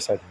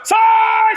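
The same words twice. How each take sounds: First: The word is said calmly and firmly. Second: The word is shouted loudly. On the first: Authority is relied on instead of force. The speaker calls it right. "se você tiver autoridade" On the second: Force is relied on instead of authority. The speaker calls it wrong. "eu preciso falar assim, ó"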